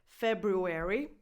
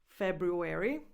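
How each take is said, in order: Both takes have the same delivery.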